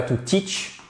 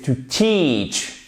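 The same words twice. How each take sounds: First: "teach" with a short, quick I, said softly; "to teach" tossed off with a short I; short vowel in teach. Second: "teach" with a long, drawn-out ee; slow, careful "to teach" with a held long I. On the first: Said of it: "C'est pas to teach". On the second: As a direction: stretch the vowel of "teach" very slowly. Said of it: "c'est un I long". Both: Shown as a demonstration.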